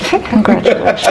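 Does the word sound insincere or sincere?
sincere. It is said warmly, with apparent sincerity. The speaker means it.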